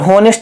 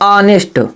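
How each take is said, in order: First: The word begins with an h sound. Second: The word begins with a vowel sound. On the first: The speaker calls it wrong. "कई बच्चे होनेस्ट पढ़ते हैं पर होनेस्ट नहीं पढ़ते" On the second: The speaker calls it right. "इसमें हम यच को नहीं पढ़ रहे हैं"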